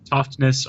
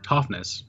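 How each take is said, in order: First: A T sound is heard before the ness. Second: No T sound is heard before the ness. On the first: "Some people pronounce it" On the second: "the second T is normally pronounced silently"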